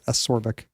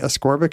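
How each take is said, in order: First: No k sound is heard before the r. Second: A k sound is heard before the r. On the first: The speaker calls it wrong. "I've been saying it wrong when I say asorbic" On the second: The speaker calls it right. "So maybe ascorbic is right"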